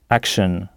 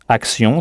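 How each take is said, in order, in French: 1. Le mot est prononcé avec des sons anglais, se terminant par kshun. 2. Le mot est prononcé avec des sons français.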